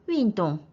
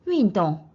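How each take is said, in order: First: The two syllables fall together in one sweep. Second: The same.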